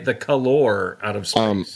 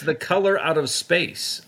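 First: It is said in a put-on British accent. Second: It is said in the speaker's ordinary accent.

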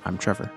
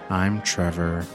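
First: It is said in his normal voice. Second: It is said in a gloomy Eeyore voice.

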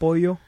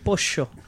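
First: It is said with a standard Spanish accent. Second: It is said with an Argentine accent. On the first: "instead of pollo" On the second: "Argentinians, pollo. They fucking pollo"

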